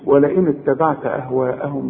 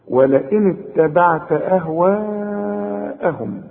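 First: The long vowel in ahwa'ahum is cut short. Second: The long vowel in ahwa'ahum is held long. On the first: The speaker calls it wrong. "ما تقولش ولئن اتبعت أهواءهم بقى" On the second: The speaker calls it right. "لازم تمده عند الوقف وعند الوصل 4 حركات"

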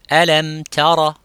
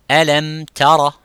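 No difference in how they are said.

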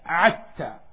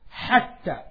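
First: The word begins with a vowel. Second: The word begins with an h sound. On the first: "when they pronounce ha, they pronounce a" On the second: "They don't pronounce ha"

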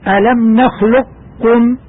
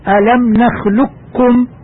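First: A heavy trace of the qaf remains. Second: The qaf fully becomes a plain doubled kaf. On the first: "الإدغام الناقص بحيث يبقى أثر للقاف وهو التفخيم" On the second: "الإدغام الكامل، أي النطق بكاف خالصة مشددة"

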